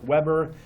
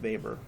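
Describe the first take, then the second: First: The name begins with an English w sound. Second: The name begins with a v sound. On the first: This is how the name looks in writing. The speaker calls it wrong. "it looks like Weber" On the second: This is how the name is actually pronounced. The speaker calls it right. "but it's pronounced Weber"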